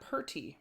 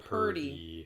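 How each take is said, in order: First: The middle consonant is a T sound. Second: The middle consonant is a D sound. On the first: The speaker calls it wrong. "Not purty" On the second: The speaker calls it right. "P U R D Y"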